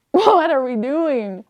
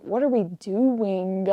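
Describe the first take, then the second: First: Loud, high, stretched-out wail of annoyance; exasperated outburst. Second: Slow, exasperated question at usual volume; drawn-out annoyance. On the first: Reader yelling at a pointless book, exasperated. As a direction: blow up, dragging out each word louder and higher. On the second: Fed-up reader questioning the book aloud, slow exasperation. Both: Retold or imitated. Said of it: "verbalizing every annoyance".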